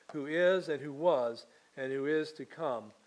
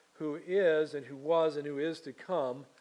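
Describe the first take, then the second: No difference in how they are said.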